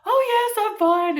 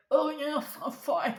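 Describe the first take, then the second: First: Very high, loud, hammed-up cheeriness; over-bright fake fine. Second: Higher, choked-up imitation of tearful reassurance; mock choking on tears. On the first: Crying caller assures agent she's okay, absurdly high and cheery. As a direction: chirp it far too brightly to cover crying. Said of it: "each time I'm like". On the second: Crying caller answers agent while choking, mock tearful. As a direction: strangle the words as if choking on snot. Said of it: "Choking on my own snot 'cause I'm crying".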